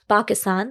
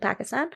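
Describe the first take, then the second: First: It is said with a native Urdu-style pronunciation. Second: It is said with an English-style pronunciation. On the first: The speaker calls it right. "but Pakistan" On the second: The speaker calls it wrong. "I have to correct myself"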